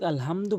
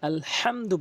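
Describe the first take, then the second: First: The h is a light, plain breathy sound. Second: The h is made deep in the throat. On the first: The speaker calls it wrong. "অধিকাংশ লোক আলহামদু বলে, যার ফলে নামাজ ভেঙে যায়" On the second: The speaker calls it right. "হাটি হলকের মাঝখান থেকে আলহামদু বলতে হবে"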